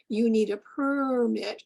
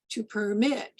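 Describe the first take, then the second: First: PERmit with the first syllable stressed and longer; noun stress. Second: PerMIT with the second syllable stressed; verb stress. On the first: Presenter showing the noun, stress on first syllable. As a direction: say "permit" as the noun, leaning on PER. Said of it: "the difference between the word". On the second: Presenter showing the verb, stress on second syllable. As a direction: say "permit" as the verb, landing on MIT. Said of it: "versus the verb to permit". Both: Shown as a demonstration.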